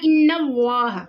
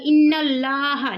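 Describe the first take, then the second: First: The L in Allah is thick and heavy. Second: The L in Allah is light and thin. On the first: The speaker calls it right. "हमें इसको पढ़ना इन्नल्लाह" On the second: The speaker calls it wrong. "हम इसे ऐसे नहीं पढ़ेंगे इन्नल्लाह, नहीं, वो गलत हो जाएगा"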